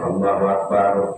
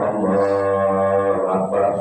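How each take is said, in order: First: The phrase is said short and quick. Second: The phrase is drawn out longer.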